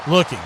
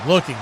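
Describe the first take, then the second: No difference in how they are said.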